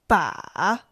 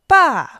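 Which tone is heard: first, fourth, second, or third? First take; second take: third; fourth. First: The pitch dips low, then rises. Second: The pitch falls sharply from high.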